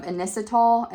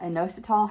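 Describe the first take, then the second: First: Inositol said as IN-is-uh-tl; inositol, stress the first syllable, short middle; first pronunciation. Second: Inositol said as in-OH-suh-tall, rising; inositol, stress OH, end tall; second pronunciation. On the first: To viewers, inositol said as IN-is-uh-tl. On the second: To viewers, inositol tried as in-OH-suh-tall. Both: Shown as a demonstration. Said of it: "however you wanna say it".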